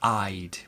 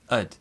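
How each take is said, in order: First: It has a full diphthong vowel. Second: It has a short, reduced vowel. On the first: The speaker calls it wrong. "normally people don't say I'd" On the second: The speaker calls it right. "More likely to say ud"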